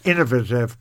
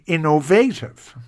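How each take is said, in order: First: It is said in a leafy Dublin accent. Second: It is said in a Cork accent.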